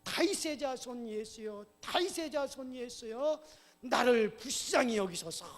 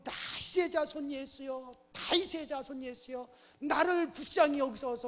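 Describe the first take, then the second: First: Louder crying out. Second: High, raised-voice plea; crying out. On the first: Beggar, hushed by the crowd, calls Jesus, crying louder. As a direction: cry out harder, stretching the words. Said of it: "큰 소리로". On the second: Blind beggar calls to Jesus despite being hushed, crying out. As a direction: keep calling out, stronger on the last plea. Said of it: "소리를 지르니까". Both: Acted.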